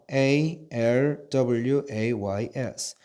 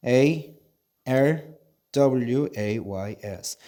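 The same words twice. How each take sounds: The two takes are said the same way.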